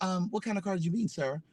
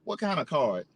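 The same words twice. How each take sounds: First: Courteous reply. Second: Curt, dismissive imitation; blunt reply. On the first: Retold or imitated. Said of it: "He'd be like". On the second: The shoeshiner answering the customer, a mildly curt imitation. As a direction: toss it off with mild attitude. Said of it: "this motherfucker gonna say to me".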